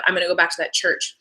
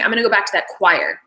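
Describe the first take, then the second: First: Said in the usual way. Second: "choir" said in place of "church"; line ending on "choir"; wrong word. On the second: Retold or imitated. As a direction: slip and say "choir" where the line has "church". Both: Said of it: "instead of".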